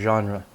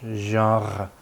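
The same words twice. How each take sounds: First: It is said with an English r sound. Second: It is said with a French throaty r sound. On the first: "in English, it is pronounced genre. Uh, stress on the first part" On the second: "you would say genre in French"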